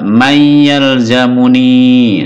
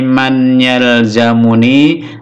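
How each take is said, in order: First: The n merges into a doubled y sound. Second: The n is pronounced separately before the y. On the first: "Kalau pakai ilmu tajwid, ... ini juga mayyal zamuni" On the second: "Ini kita baca tanpa ilmu tajwid"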